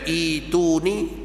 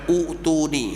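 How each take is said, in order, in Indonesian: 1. Kata ini diawali dengan vokal 'i'. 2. Kata ini diawali dengan vokal 'u'. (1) "yang baca itu ni tujuh orang aja" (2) "selebihnya ada baca utu ni"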